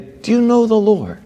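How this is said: It is said graciously and gently.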